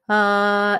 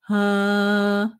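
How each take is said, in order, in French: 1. Une voyelle neutre, purement orale, sans couleur nasale. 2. Une voyelle sombre, légèrement nasale, avec un larynx bas. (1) "au lieu de «ah» uniquement oral" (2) "le larynx un tout petit peu bas et le son qui est un peu"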